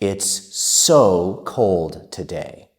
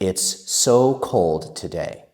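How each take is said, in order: First: It is spoken at a slow, careful pace. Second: It is spoken at a moderately quick pace.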